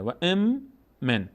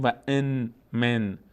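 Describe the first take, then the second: First: Slow ام من with held m; n merged into mim. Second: ان من with separate n and m; unmerged, harder way. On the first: Teacher shows the easy way, ام من joined on m. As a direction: hum one long m from ام into من. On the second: Teacher shows the harder way, ان kept apart from من. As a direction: pronounce the n of ان fully before من. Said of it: "مقداری سخت بگیم و ان من". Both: Shown as a demonstration.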